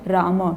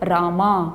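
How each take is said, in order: First: The final vowel is short, not drawn out. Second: The final vowel is drawn out long. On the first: It names a single person. The speaker calls it right. "शुद्ध उच्चारण राम" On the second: In Sanskrit this long ending marks the plural. The speaker calls it wrong. "इस अंतिम अ को थोड़ा सा दीर्घ कर दिया"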